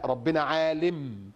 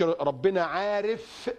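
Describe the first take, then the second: First: Lower, slow correction on عالم; slow falling close on عالم; correct wording example. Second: عارف held very long; slow quote dwelling on عارف; wrong wording example. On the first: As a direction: draw out عالم lower, as the proper word. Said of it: "لا، ربنا عالم". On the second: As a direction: stretch عارف slowly as the word not to use. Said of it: "ما نقولش". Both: Shown as a demonstration.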